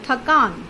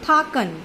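First: The long vowel is in the second syllable. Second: The long vowel is in the first syllable. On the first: "क, आ की मात्रा और न" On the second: "थ, आ की मात्रा, क और न"

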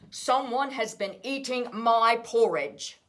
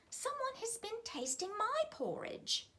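First: It is said in a deep, gruff bear voice. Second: It is said in a lighter, less gruff voice.

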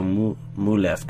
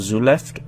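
First: The name begins with an M sound. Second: The name begins with a Z sound. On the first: "is the Z silent" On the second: "Is the M silent"

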